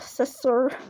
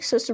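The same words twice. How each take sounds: First: The first sound is a lisped th. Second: The first sound is a plain s.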